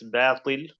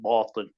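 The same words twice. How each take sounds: First: The b sound is light and thin. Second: The b sound is heavy and thick. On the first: The speaker calls it right. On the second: The speaker calls it wrong.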